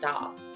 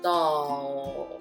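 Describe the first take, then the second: First: The L sound is weak and unclear. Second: The L sound is strongly exaggerated. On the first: The speaker calls it wrong. "A lot of times they probably say doll" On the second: The speaker calls it right. "really exaggerate that"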